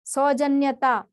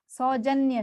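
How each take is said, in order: First: सौजन्यता with an extra "taa" ending; wrong form. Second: सौजन्य ending on "nya"; correct form. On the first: Teacher citing a non-word, सौजन्यता ending in "taa". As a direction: add ता to the end of सौजन्यता. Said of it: "ये भी कोई शब्द नहीं है". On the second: Teacher giving the right word, सौजन्य ending in "nya". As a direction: finish सौजन्य at न्य, no "taa". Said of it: "सौजन्य शब्द होता है". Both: Shown as a demonstration.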